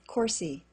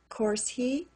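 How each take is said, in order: First: The H is dropped, sounding like 'coursey'. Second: The H in 'he' is pronounced.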